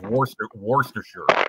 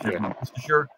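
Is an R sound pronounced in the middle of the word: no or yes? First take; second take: yes; no. First: The word is said with the R sound. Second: The word is said without the R sound. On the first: The speaker calls it wrong. "I say the R when I guess I should let that go" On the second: The speaker calls it right. "It's just Worcestershire instead of"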